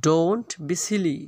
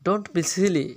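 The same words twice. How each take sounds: First: Slow, stretched-out model reading; slow repeat. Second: Said in the usual way. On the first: Shown as a demonstration. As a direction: draw out "Don't" and "silly" for learners. Teacher repeats phrase slowly.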